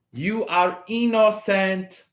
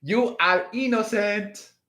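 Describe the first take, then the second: First: Said in the usual way. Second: Playful mock Spanish accent; joking Spanish accent. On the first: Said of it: "Do I have to speak it in a Spanish accent?". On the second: Shown as a demonstration. Reassuring Aquarius in a mock Spanish accent. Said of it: "in a Spanish accent?".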